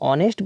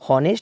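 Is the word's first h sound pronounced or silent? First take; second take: silent; pronounced. First: The word begins with a vowel sound. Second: The word begins with an h sound. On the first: The speaker calls it right. "इसको ऑनेस्ट पढ़ते हैं" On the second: The speaker calls it wrong. "हॉनेस्ट नहीं पढ़ते हैं"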